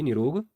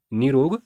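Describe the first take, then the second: First: निरोग with a short "ni"; wrong pronunciation. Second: निरोग with a long "nee"; correct pronunciation. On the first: Teacher showing the wrong form, निरोग said "ni-rog". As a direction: keep the first vowel of निरोग short. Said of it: "अशुद्ध वर्तनी है". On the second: Teacher telling students the correct form, निरोग said "nee-rog". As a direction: stretch the first vowel of निरोग. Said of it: "शुद्ध वर्तनी है". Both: Shown as a demonstration.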